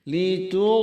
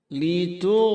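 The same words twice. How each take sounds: No difference in how they are said.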